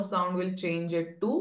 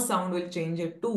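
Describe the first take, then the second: Both takes have the same delivery.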